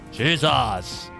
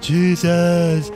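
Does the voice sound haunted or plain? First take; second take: plain; haunted. First: It is said in a plainer, non-haunted voice. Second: It is said in an eerie, haunted voice. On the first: "it was a very different voice" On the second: "it's a haunt haunted kind of voice that they had there"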